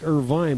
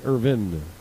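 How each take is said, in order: First: The last syllable sounds like 'vine'. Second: The last syllable sounds like 'vin'. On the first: The speaker calls it wrong. "it looks like Irvine" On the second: The speaker calls it right. "but it's really Irvin"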